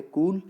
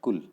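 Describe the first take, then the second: First: "कूल" with its ū held long; "कूल" said long, for contrast; long stressed vowel. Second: "कुल" cut short, with a light u; "कुल" said short, for contrast; short unstressed vowel. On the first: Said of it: "stressed है". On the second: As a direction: keep "कुल" brief and unstressed. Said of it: "stress नहीं आ रहा". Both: Shown as a demonstration.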